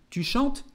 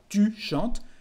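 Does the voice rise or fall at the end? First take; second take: rises; falls. First: The voice rises at the end, as a question. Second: The voice falls at the end, as a statement.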